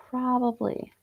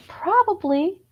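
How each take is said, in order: First: Settled probably. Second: High, rising, unsure Probably; Probably tossed up high as a guess; high questioning probably. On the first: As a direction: drop Probably down as if deciding. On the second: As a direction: lift Probably up at the end like a question. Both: Pretend. Repeating the word two ways.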